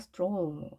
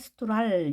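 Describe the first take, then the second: First: The vowel is long, like oh. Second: The vowel is short, like ah. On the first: The speaker calls it right. "좀 더 길게 발음이 됐죠" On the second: The speaker calls it wrong. "스트랄 이렇게 읽을 수 있겠지만"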